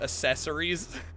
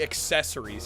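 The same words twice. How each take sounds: First: Accessories is said in an imitated, unusual pronunciation. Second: Accessories is said in the ordinary standard pronunciation. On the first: This is how someone else says it. "he says accessories" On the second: This is the usual way to say it. "He doesn't say accessories"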